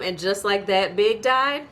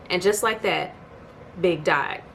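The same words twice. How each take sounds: First: Incredulous echo. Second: Said in the usual way. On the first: Retold or imitated. Echoing Carrie's line in shocked disbelief. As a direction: throw it back at her, stunned. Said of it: "Really, ma'am?". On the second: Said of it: "the episode ends with her saying".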